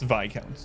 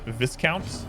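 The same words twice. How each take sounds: First: The word is pronounced differently from its spelling. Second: The word is pronounced as it is spelled. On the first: The speaker calls it right. "It's Viscount, yeah. Viscount is how it's spelled, but it's uh, it's French" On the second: The speaker calls it wrong. "I used to pronounce it Viscount until I, I learned that I was mispronouncing it"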